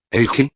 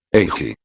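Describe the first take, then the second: First: "Eiji" as a question, pitched high and rising; higher, questioning call of "Eiji". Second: "Eiji" pitched low, with a falling end; lower, falling "Eiji", no question; falling statement. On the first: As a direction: ask "Eiji" with a lifted, rising end. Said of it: "preguntaron Anko y Kat". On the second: Name said back, no question. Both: A narrator's reading.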